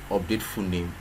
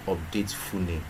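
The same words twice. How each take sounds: The two takes are said the same way.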